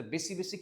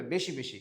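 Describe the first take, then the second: First: "বেশি বেশি" as besi besi; Old Dhaka s. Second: "বেশি বেশি" as beshi beshi; standard pronunciation. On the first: Retold or imitated. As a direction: dental s in place of sh in "বেশি". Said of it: "তালব্য স্বর উচ্চারণও কি দন্ত স্বরের মতো". ("বেশি" স দিয়ে বেসি) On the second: Shown as a demonstration. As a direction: clear sh in "বেশি". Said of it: "উচ্চারণটা কি হবে?". ("বেশি" তালব্য শ দিয়ে বেশি)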